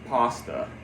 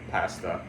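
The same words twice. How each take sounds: First: The first vowel sounds like the one in 'pause'. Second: The first vowel sounds like the one in 'pass'. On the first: This is how most Americans say it. The speaker calls it wrong. "have the tendency of calling this word pasta" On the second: This is how it should be said. The speaker calls it right. "instead of pasta"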